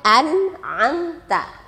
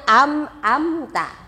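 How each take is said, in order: First: The first syllable ends with an n sound. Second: The first syllable ends with an m sound. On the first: The speaker calls it right. "Huruf nun dan mim sukun. Membacanya" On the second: The speaker calls it wrong. "Anak-anak sering membacanya"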